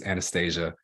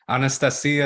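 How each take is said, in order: First: The name has an American pronunciation. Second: The name has a Russian pronunciation. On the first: This is how it is said locally. "it's Anastasia here" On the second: This is how it is said in the original language. "Anastasia is the way you'd say it in Russian"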